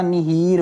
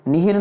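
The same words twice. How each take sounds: First: "निहीर" with drawn-out hee; long-i "निहीर". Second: "निहिर" with short second i. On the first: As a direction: stretch the second vowel of निहीर. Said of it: "होता है". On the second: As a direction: keep hir quick in निहिर. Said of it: "नहीं होता". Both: Shown as a demonstration.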